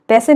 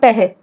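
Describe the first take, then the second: First: The middle consonant is an s sound. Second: The middle consonant is an h sound. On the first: "ज़्यादातर पैसे नहीं बोलते" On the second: "वो flow flow में पैहे"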